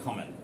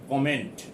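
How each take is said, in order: First: The final T is pronounced weakly, barely heard. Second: The final T is pronounced strongly and clearly. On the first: The speaker calls it right. "I have not pronounced this T very emphatically" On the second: The speaker calls it wrong. "I have not said comment"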